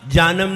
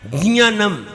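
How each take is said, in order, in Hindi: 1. यह सादे j ध्वनि से शुरू होता है। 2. यह नासिक j-y ध्वनि से शुरू होता है। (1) "जानम नहीं" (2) "जा और या नाक से आएगा, ज्ञानम, ये सही है"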